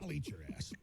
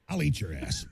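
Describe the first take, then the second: First: It is said quietly. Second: It is said loudly.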